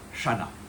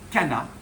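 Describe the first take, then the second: First: The word begins with a soft sh sound. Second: The word begins with a hard k sound. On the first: The speaker calls it wrong. "et pas Chana" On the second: The speaker calls it right. "on dit Cana"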